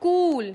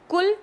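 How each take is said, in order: First: कूल with a long drawn u, louder and higher; teacher models कूल with long ऊ, emphatically; long u demo. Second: कुल with a short clipped u; teacher models कुल with short उ, plainly; short u demo. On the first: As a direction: stretch the u in कूल and lift it. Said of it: "ऊ". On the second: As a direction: say कुल with a quick short u sound. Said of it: "व्यंजन के नीचे उ". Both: Shown as a demonstration.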